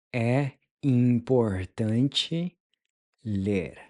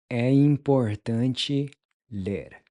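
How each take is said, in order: First: "É importante" slowed, with a rising "ler" after it; slow model. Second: Said in the usual way. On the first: Shown as a demonstration. Teacher modeling the phrase slowly for learners. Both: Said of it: "How would you say it's important to read?".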